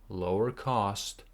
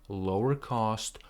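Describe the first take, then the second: No difference in how they are said.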